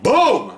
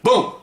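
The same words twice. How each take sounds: First: Big explosive BOOM, pitched up; loud, high boom of an exploding cigar; really loud boom. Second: Modest cigarette-load pop, imitated; ordinary boom. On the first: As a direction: imitate a huge blast on boom. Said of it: "This one's like". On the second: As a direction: say boom as a small, unexciting bang. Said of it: "I'll give you my voice". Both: Shown as a demonstration.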